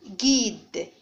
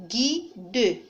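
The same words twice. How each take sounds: First: Said in the usual way. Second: "guide" broken into gui-de; two-syllable "guide" with the final e sounded; split into syllables. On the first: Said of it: "Je vais les prononcer". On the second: Shown as a demonstration. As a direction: say "guide" in two separate beats, gui, then de. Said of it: "je vais les découper".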